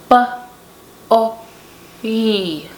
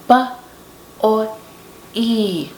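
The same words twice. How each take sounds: Both takes have the same delivery.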